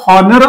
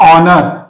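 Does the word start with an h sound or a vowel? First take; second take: h sound; vowel. First: The word starts with an h sound. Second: The word starts with a vowel sound. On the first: The speaker calls it wrong. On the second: The speaker calls it right.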